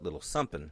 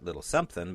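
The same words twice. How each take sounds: First: The word is clipped to 'sumpin', ending in 'pin'. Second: The word is said fully, ending in 'thing'. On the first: The speaker calls it right. "something is S U M P I N" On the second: The speaker calls it wrong. "So not little something"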